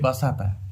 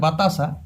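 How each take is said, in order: First: The s sound comes before the t sound. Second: The t sound comes before the s sound. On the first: "আমরা বলি বাসাতা" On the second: "কথাটা বটে বাতাসা"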